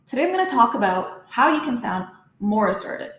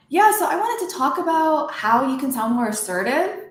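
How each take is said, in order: First: "assertive" drops at the end, serious; ending on lower note. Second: Higher, with "assertive" rising like a question; ending on high pitch. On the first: Coach shows the assertive version, "assertive" dropping in pitch. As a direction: let the tone fall firmly on "assertive". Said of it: "See how my tone kinda dropped". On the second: Coach shows what not to do, "assertive" going up. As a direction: let "assertive" lift up at the end, unsure. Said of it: "See how my voice went up". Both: Shown as a demonstration.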